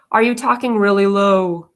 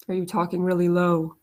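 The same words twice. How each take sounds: First: Said in the usual way. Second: Much lower, softer, pressed-down voice; demo of talking low. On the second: Shown as a demonstration. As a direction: drop the voice low and quiet to show the habit.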